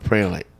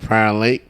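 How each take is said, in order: First: The first word sounds like 'prayer', one syllable. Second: The first word sounds like 'prior', two syllables. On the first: "Prior Lake or Prayer Lake?" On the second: "Prior Lake or Prayer Lake?"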